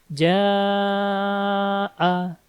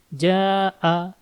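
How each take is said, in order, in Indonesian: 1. Vokal ditahan lama. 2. Vokal ditahan sebentar. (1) "Jadi panjang" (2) "Kalau ini ja'a"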